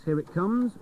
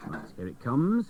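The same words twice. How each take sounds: First: Jumps up higher, eager; as if the prize is about to drop out; rising excitement. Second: Said in the usual way. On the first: Real, not acted. Presenter waiting on the jukebox, jumping up excited.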